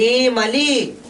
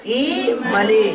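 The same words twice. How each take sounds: First: Said in the usual way. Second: इमली with the first इ drawn out long and slow; teacher showing the wrong long version of इमली; long vowel demo. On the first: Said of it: "ह्रस्व है इसलिए बोल दिए इमली". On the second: Shown as a demonstration. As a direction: hold the इ of इमली as if it were a long ई. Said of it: "और यह दीर्घ रहता तब इमली".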